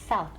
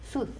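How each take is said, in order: First: The word ends in a th sound. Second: The word ends in a plain s sound. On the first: The speaker calls it right. "We want south" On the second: The speaker calls it wrong. "Some people say sus. That's incorrect"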